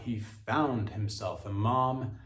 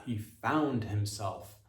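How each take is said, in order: First: "found" and "mom" drawn out; slow, press "found" then "mom"; stress on found and mom. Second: "found" slow, heavy, falling; stress on found. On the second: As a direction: lean hard on "found", slowly. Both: Shown as a demonstration. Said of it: "emphasis on fa".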